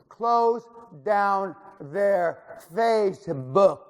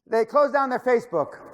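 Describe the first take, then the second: First: It is said very slowly. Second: It is said at a normal pace.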